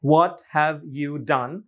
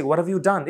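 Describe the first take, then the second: First: WHAT HAVE YOU DONE slow, every word separate; careful unlinked demo, each word drawn out. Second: WHAT HAVE YOU DONE run together as "whadaview done"; quick blended native-style phrase; linked pronunciation. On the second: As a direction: glide "what have you" into one word. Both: Shown as a demonstration. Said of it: "হয়ে যাচ্ছে".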